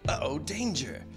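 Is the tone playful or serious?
playful. It sounds light and playful.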